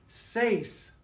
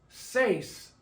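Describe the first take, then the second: Both takes have the same delivery.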